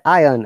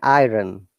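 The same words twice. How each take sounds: First: It is said without an r sound. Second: It is said with an r sound. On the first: "in British accent we say iron. R is not there" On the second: "But in in American accent"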